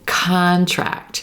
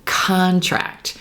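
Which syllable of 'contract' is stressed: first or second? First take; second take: first; first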